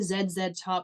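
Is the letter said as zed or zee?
zed. The letter is said the Canadian way, zed.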